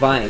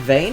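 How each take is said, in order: First: The vowel sounds like the one in 'vine'. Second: The vowel sounds like the one in 'vain'. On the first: It is read as a German word. "or vine? ... if it's vine like German" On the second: It is the English word for a seam of ore. "Pronounce it vein? Is it vein"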